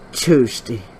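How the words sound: It is said in a Forrest Gump voice.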